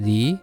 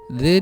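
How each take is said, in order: First: 'The' is said with a long 'ee' vowel. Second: 'The' is said with a short, weak vowel. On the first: The next word starts with a vowel sound. "dibaca kalau suara awalnya vokal" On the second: The next word starts with a consonant sound. "dibaca kalau suara awalnya konsonan"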